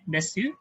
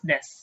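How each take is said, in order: First: The final u vowel is fully pronounced. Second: The final u vowel is dropped. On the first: The speaker calls it wrong. "we don't say it desu" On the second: The speaker calls it right. "it's des"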